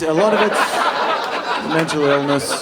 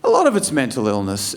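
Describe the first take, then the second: First: Slow emphatic repeat. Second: Said in the usual way. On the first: Shown as a demonstration.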